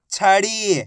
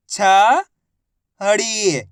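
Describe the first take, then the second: First: छड़ी joined, ending on held ड़ी; blended word. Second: छड़ी split as छ, long pause, ड़ी; syllable by syllable. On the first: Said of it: "आपस में मिला के पढ़ दो". (छड़ी को मिलाकर बोलें) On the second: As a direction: sound out छड़ी slowly, छ rising, ड़ी falling. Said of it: "एक अक्षर की पहचान करो, उनका उच्चारण करो". (छड़ी को अक्षर-अक्षर अलग बोलें) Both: Shown as a demonstration.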